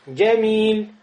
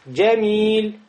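Both takes have the same delivery.

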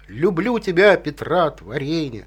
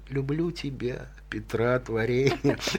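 First: The line is declaimed in a grand, loud manner. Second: The line is spoken softly in a thoughtful manner. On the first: It is recited as a public performance. The speaker calls it wrong. "как сейчас читают стихи вот Пушкина" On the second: It is a private reflection late at night. The speaker calls it right. "Сидит человек ночью при свете свечки, да? Он думает об этом. Читать надо"

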